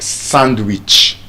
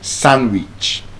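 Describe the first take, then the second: First: The D sound is pronounced in the word. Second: The D sound is silent in the word. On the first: The speaker calls it wrong. "So that's why it's not sandwich" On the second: The speaker calls it right. "The D is silent there as well"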